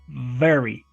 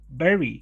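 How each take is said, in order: First: It starts with a buzzing V using lip and teeth. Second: It starts with a B sound using both lips. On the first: The speaker calls it right. "It is labiodental, and we have to vibrate the sound" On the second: The speaker calls it wrong. "We don't say, Remember, it's not bilabial"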